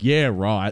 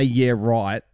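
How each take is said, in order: First: Sarcastic yeah right. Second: Sincere yeah right. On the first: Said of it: "as opposed to". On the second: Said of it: "You say". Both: Retold or imitated.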